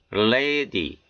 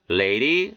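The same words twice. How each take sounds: First: 'lady' with a full hard D; unflapped D. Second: 'Lady' with D as an R-like tap; American flapped D. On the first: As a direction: keep the D in 'lady' distinct. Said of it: "이렇게 발음해 틀린 것은 아니". ('lady'의 D를 또렷한 ㄷ로) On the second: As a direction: flap the D in 'Lady'. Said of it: "연음 현상이 들어가서 이렇게". ('Lady'의 D를 ㄹ처럼) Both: Shown as a demonstration.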